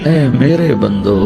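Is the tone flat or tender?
tender. It is said in a warm, tender tone. The speaker calls it right.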